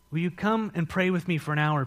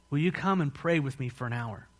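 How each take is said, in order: First: A firmer plea, leaning on "come"; more emphatic appeal, weight on "come"; insistent request. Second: Said in the usual way. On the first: Acted. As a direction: press "Will you come" harder. Jesus's request repeated with more insistence.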